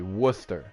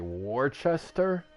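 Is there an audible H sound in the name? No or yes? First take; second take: no; yes. First: The name is said without an H sound. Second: The name is said with an H sound. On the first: The speaker calls it right. "number seven is actually Worcester" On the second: The speaker calls it wrong. "everyone will say Worcester, and I'm like, where's the H"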